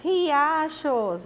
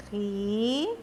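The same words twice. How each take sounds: First: Said in the usual way. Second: "Ri-a-chos" in three separated pieces; each syllable of "Ri-a-chos" alone. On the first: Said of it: "qual é a outra palavrinha". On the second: Shown as a demonstration. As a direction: dictate "Ri-a-chos" with long pauses. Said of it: "Nós vamos separar as sílabas".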